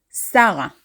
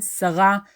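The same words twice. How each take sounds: First: Sarah as "SA-ra"; everyday Hebrew Sarah, weight up front, "SA-ra"; first syllable stressed. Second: Sarah as "sa-RA"; formal Hebrew Sarah, weight on the end, "sa-RA"; last syllable stressed. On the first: Teacher giving the everyday female name, Sarah stressed as "SA-ra". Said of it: "about a female name". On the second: Teacher recalling the formal name, Sarah stressed as "sa-RA". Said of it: "as we said". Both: Shown as a demonstration.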